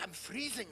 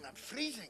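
First: Mock shiver. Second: Mock shiver, softer. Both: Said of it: "she's like".

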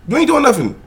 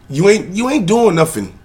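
First: Heated rant. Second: Ranting. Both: Real, not acted. Escalating rant at man.

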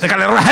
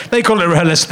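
First: Said in the usual way. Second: Mock German accent on rehearsal. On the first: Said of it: "they do it in a German accent". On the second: Shown as a demonstration. To the audience, mock German accent. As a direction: say it like a stiff German. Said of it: "they do it in a German accent like I did just then".

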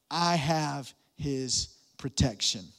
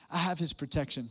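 First: Slow, low, with "I" leaned on hard; stress on I. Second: "have" is hit, the rest soft; stress on HAVE. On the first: Pastor slows to stress "I" for notes. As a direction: land on the word "I" slowly. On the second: Pastor repeats it stressing "have" for notes. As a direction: press on "have", let it fall. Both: Shown as a demonstration. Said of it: "you can write this down".

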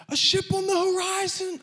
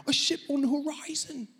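First: Said in the usual way. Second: Put-on high, lightly done British accent; a quick try at a British accent. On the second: Preacher redoes the lookout line in a light British accent. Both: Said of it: "I should say it with a British accent".

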